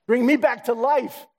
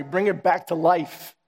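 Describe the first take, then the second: First: Slow plea lifted much higher; rising plea. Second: Slow, earnest plea to God; prayerful plea. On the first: Praying for revival, slow and lifted high. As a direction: reach up with the words. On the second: Praying for revival, slow and earnest. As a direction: ask slowly, from the heart. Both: Acted. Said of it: "Lord, give me that fire".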